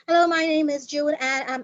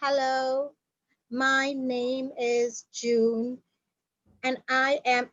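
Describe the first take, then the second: First: It is spoken very fast. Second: It is spoken very slowly. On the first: "It shouldn't be like" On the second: "neither too slow"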